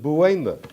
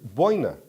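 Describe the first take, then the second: First: The first syllable sounds like 'bway'. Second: The first syllable sounds like 'boy'. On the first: "Others pronounce it Buena" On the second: "Some pronounce it Boina Vista"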